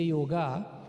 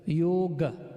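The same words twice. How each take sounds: First: The word ends with a full final vowel. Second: The word ends with a faint final vowel. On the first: The speaker calls it wrong. "that in itself is not is not one hundred percent correct" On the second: The speaker calls it right. "Hence, the word is yoga"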